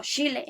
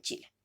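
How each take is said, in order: First: "Chile" said as "Shile", ch softened to sh; "Chile" pronounced shee-leh; soft sh sound. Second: Said in the usual way. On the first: Shown as a demonstration. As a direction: say "Chile" with sh instead of ch. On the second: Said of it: "en vez de".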